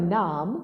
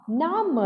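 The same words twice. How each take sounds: First: Said in the usual way. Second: नाम higher, split into ना and म; syllable by syllable. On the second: Shown as a demonstration. Teacher reading नाम for children, syllable by syllable. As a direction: sound out नाम with the म fully voiced. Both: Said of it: "अब इसे पढ़ते हैं".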